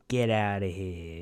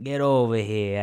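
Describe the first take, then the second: First: Slow Italian-American mobster brush-off; Paulie Walnuts. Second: Mock Italian-American mobster beckoning; Paulie Walnuts. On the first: Acted. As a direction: dismiss them slowly, Italian-American wise guy. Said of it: "instead of "Get over here," I'd be". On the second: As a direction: call them over, Italian-American wise guy. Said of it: "Paulie Walnuts".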